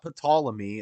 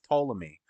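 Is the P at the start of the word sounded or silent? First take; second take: sounded; silent. First: The word begins with a pronounced P sound. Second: The word begins with a T sound, P silent. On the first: The speaker calls it wrong. "Not Ptolemy" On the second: The speaker calls it right. "I think the P is silent. It's Ptolemy"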